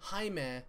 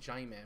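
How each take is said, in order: First: The name is said with natural Spanish sounds. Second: The name is said with odd, distorted sounds. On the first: This is the character's real name. The speaker calls it right. "It was Jaime" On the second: This is how the game mispronounced it. The speaker calls it wrong. "They said Jaime, which was really weird"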